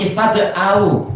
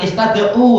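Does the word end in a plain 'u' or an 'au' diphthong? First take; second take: au diphthong; plain u. First: The word ends in an 'au' diphthong. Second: The word ends in a plain 'u' vowel. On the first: The speaker calls it right. "tapi istada'au karena yang dihapus alif" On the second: The speaker calls it wrong. "bukan istada'u"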